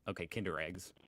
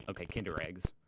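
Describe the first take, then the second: No difference in how they are said.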